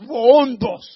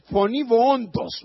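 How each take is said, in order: First: Βοόντος called out loud like a voice in the desert; a mock desert-prophet call; crying out. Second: Said in the usual way. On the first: Shown as a demonstration. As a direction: boom out βοόντος.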